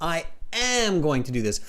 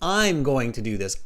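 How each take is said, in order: First: I am is said as two full words. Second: I am is contracted into one syllable.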